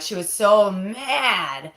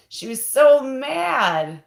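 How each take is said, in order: First: Said in the usual way. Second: Slow and emphatic, "so" pushed higher and louder; stress on so. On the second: Shown as a demonstration. Repeating how angry her aunt was, with slow heavy stress on "so". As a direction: lean hard on "so", drag it out slowly.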